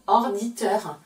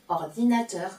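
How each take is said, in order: First: "orditeur", dit sans la syllabe "na"; syllabe cachée omise. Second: Said in the usual way. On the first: Shown as a demonstration. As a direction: avale le "na" : "orditeur". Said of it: "La syllabe cachée est na". (mot amputé de "na", « orditeur ») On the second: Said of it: "pour dire ordinateur".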